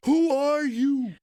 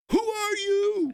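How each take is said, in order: First: Put-on high, slow, loud small child asking through tears; scared little boy. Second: Put-on high, slow, loud callback to the lost toddler's line, laughing; mock little boy. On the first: At Disney World, the lost crying son asks his famous dad who he is, high scared child voice. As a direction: play the lost toddler who doesn't know his dad. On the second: Father walks up to his champion son and teases him, high, slow, laughing child voice. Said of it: "took the time to walk up to him and go".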